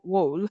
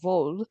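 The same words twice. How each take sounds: First: The name is said with an American pronunciation. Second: The name is said with a German pronunciation. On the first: "probably Americanized as like" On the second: "that's my German pronunciation"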